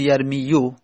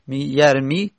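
First: The word ends with a short u vowel. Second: The word ends on the long i sound. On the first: This is the underlying original form. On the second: This is the form actually used.

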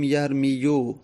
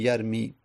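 First: The word ends with an added final u vowel. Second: The word ends on the i without an added vowel. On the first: This is the underlying form with its case vowel. The speaker calls it wrong. "پس یرمی میتونیم بگیم یرمیو، اما دمه بر یا که حرف علت سنگینه" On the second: This is how it is actually said. The speaker calls it right. "عرب اونو ساکن میکنه، میگه یرمی"

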